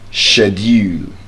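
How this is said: It is said with a British pronunciation. "the British pronunciation of that word is schedule"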